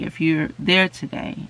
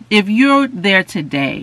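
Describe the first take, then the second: First: Said in the usual way. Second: "if you're there today" slower and louder; emphatic call. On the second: Shown as a demonstration.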